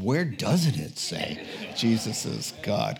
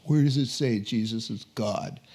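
First: "doesn't" punched, falling to a firm close; stress on doesn't. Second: "Where" stressed, the rest of the question flat; questioner's stress on where. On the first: Preacher retorting to the coffee shop questioner, stress on "doesn't". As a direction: turn the question back, hitting "doesn't". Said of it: "And I said". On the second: Coffee shop stranger challenging the preacher, stress on "Where". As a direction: challenge him, leaning on "Where". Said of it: "somebody asked me in a coffee shop". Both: Retold or imitated.

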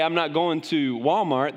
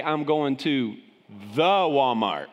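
First: Said in the usual way. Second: Southern the Walmart. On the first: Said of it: "A lot of people say". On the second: Shown as a demonstration. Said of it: "They say".

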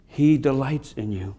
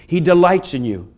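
First: "He delights in you" said softer, slower, with a stress on "He"; hushed, tender echo of the line before; tender, soft repeat. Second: Said in the usual way. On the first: Shown as a demonstration. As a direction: let "He" land gently and slow the whole line right down.

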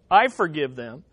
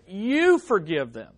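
First: "I" emphasized, the rest falling low; stress on I. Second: "you" set apart and emphasized; stress on YOU. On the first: Preacher showing what Jesus did not say, stress on "I". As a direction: lean on "I", then drop through "forgive them". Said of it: "He does not say". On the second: Preacher showing what Jesus asks the Father, stress on "you". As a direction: lean on "you", then let "forgive them" fall. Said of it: "Notice he doesn't say". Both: Shown as a demonstration.

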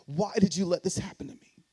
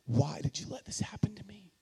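First: Said in the usual way. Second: A hushed, desperate question to God; whispered plea. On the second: Retold or imitated. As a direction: whisper it, breathless and raw. Angry prayer to God, retold.

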